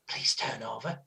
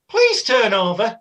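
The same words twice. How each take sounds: First: The phrase is whispered quietly. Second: The phrase is said loudly. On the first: The speaker calls it right. "I'd whisper it normally" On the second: The speaker calls it wrong. "not that loud because then other people would hear"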